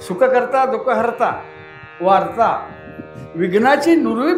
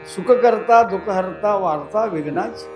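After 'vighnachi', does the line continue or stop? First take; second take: continues; stops. First: The line runs on after vighnachi without stopping. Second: The line stops after the word vighnachi. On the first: Not even news of trouble remains. The speaker calls it right. "थांबायचं नाही" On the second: Troubles are announced, not removed. The speaker calls it wrong. "आपण थांबतोय"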